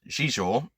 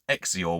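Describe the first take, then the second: First: The name begins with a 'z' sound. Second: The name begins with an 'eks' sound. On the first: This is the intended pronunciation. The speaker calls it right. "apparently as it's meant to be pronounced" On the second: This is how it was guessed from reading it. The speaker calls it wrong. "I always thought it was Exior when I was reading it as a kid"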